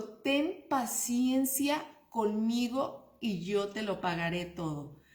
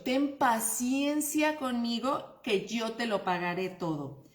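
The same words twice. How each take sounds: First: Slow pleading. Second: Said in the usual way. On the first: Retold or imitated. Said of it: "Fíjate, dijo". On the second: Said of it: "Paciencia, como, no te lo tomes tan a pecho".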